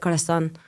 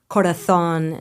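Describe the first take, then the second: First: It is said in a non-Rioja, Latin American accent. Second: It is said in a Rioja Spanish accent.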